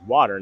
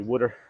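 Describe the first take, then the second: First: It is said in a standard accent. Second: It is said in a Philadelphia accent.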